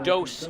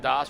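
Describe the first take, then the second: First: The name's vowel sounds like 'oh'. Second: The name's vowel sounds like 'ah'. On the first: The speaker calls it right. "Tristan Dose is the pronunciation" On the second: The speaker calls it wrong. "not Das"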